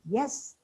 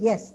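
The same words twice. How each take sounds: First: The pitch falls and then rises. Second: The pitch falls on the word. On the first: A reservation is implied. "Yes implied" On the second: The speaker agrees. "yes means you agree"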